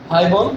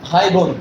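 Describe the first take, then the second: Both takes have the same delivery.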